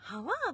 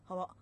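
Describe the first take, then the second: First: The word is said in a lively, expressive way. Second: The word is said in a flat, deadpan way. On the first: "シオリみたいなハワとかハワとかそういうのじゃなくて" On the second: "じとめっぽいね"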